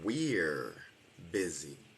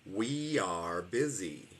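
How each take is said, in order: First: We and are merge into one short syllable. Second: We and are are two separate full words.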